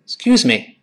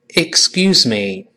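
First: It is said fast, the first syllable barely heard. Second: It is said slowly, every syllable clearly heard. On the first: "我们听到老外很快的这么说excuse me" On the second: "我们先跟老师先慢慢读"

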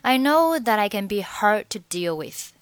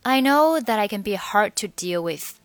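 No difference in how they are said.

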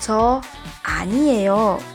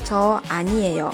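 First: It is said firmly and indignantly. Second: It is said in a calm, composed tone.

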